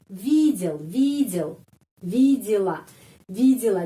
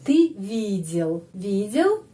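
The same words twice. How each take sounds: First: Видел and видела, е said as I. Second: Видел slow, stress on the и; slow, lean on the и in видел. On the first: Teacher drills видел and видела for students. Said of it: "di sini kedengarannya I". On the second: Teacher demonstrates stress in видел for students. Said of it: "di sini penekanannya I". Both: Shown as a demonstration.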